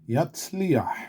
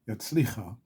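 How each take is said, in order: First: The final vowel comes before the last consonant. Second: The final vowel follows a raspy last consonant. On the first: The speaker calls it right. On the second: The speaker calls it wrong.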